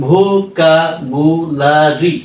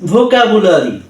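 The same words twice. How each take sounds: First: vocabulary stretched slowly, syllables joined; slow blended word. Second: Said in the usual way. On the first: Shown as a demonstration. Tutor blends the drilled syllables for learners, slowly. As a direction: draw vocabulary out slowly with a rise at the end. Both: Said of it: "হ্যাঁ, ঠিক এভাবেই".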